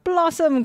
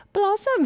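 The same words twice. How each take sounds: First: High mock-Irish priest exclamation; priest crying out. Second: Much higher put-on little girl voice. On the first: Priest echoing the little girl's name, crying out. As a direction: cry it out in delighted surprise. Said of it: "cries the pl-, priest". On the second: Little girl telling the priest her name, high and girlish.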